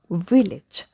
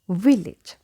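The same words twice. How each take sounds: The two takes are said the same way.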